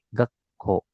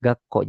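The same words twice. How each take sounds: First: "Gakko" as gak, short silence, ko; doubled k. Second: Said in the usual way. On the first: Shown as a demonstration. Teacher shows there are two k, doubled consonant. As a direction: stop on the k in "Gakko", then release ko. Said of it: "tapi ada double". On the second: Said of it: "bukanya itu bukan satu".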